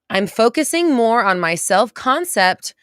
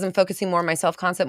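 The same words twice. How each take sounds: First: It is said slowly and deliberately. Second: It is said at a normal pace.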